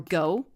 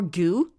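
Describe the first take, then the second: First: The name rhymes with though. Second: The name rhymes with through. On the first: "like though" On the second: "like through"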